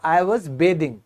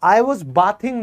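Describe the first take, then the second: First: Bathing starts with the vowel of bay. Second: Bathing starts with the vowel of bath. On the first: The speaker calls it right. "इसका उच्चारण होगा I was बेदिंग" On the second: The speaker calls it wrong. "I was बाथिंग नहीं"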